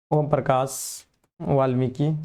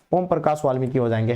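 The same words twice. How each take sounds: First: Slow, spaced-out repeat of the name; half-speed, for writing down; slow dictation. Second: Said in the usual way. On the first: Shown as a demonstration. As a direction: dictate it slowly, pausing between words. Repeats answer for note-taking.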